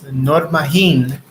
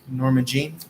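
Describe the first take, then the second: First: The name is said with a Spanish accent. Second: The name is said with a plain English accent.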